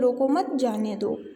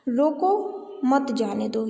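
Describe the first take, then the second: First: The pause comes right after the second word. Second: The pause comes right after the first word. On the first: Do not stop him; let him go. "रोको मत, फिर रुके और जाने दो" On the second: Stop him; do not let him go. "यानी उसे रोको, उसे जाने नहीं देना है"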